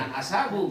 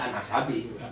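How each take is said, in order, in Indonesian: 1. Kata kedua berakhir dengan vokal u. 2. Kata kedua berakhir dengan vokal i. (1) "Bacanya jangan an ashabu" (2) "karena depannya huruf jar udah an ashabi"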